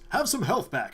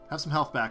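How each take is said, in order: First: It is said in a put-on character voice. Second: It is said in the speaker's normal voice.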